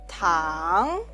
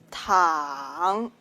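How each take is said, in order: First: The pitch rises from mid to high. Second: The pitch dips low then rises. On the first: It means candy. "Tongue can mean candy" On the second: It means to lie down. "Tongue can mean to lie down"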